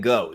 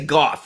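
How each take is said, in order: First: The name is said the non-British way. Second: The name is said the British way. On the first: "rather than go" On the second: "they do in England. So in the show, they say Goff"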